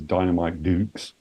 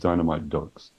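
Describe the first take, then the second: First: The last word sounds like 'dukes'. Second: The last word sounds like 'ducks'. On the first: This is the name used in some regions. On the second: This is the name used in the UK.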